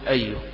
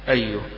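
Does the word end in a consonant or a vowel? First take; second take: consonant; consonant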